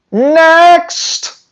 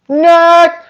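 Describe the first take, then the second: First: Next, tossed out high and scornful; scoffing dismissal. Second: Scoffing dismissal. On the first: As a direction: wave it off high and sharp. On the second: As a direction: wave it away again, higher. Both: Real, not acted. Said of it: "dismissing breeders".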